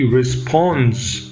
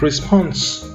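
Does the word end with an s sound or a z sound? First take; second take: z sound; s sound. First: The word ends with a z sound. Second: The word ends with an s sound. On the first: The speaker calls it right. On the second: The speaker calls it wrong. "not response"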